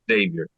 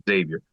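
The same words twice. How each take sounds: No difference in how they are said.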